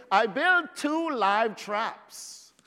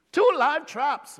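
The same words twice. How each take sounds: First: Said in the usual way. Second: "Two live traps" repeated higher and louder, punching "two"; emphatic repeat. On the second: Real, not acted. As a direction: hit "Two" hard and lift the whole phrase.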